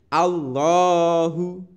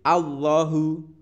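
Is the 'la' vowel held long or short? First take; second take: long; short. First: The la vowel is held for two beats. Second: The la vowel is kept short. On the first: The speaker calls it right. "tapi Allahu, seperti itu" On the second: The speaker calls it wrong. "tidak boleh Allahu"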